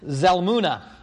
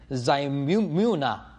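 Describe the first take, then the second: First: The name is said firmly and confidently. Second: The name is said hesitantly and unsurely. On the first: The speaker calls it right. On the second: The speaker calls it wrong.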